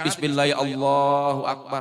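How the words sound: It is said with deep, heartfelt feeling.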